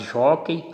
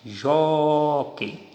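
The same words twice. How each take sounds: First: Said in the usual way. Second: "Jockey" with a long, held JÓ; stressed syllable drawn out. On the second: Shown as a demonstration. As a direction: stretch the O of "Jockey" to show the stress. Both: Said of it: "Encontrei a tonicidade".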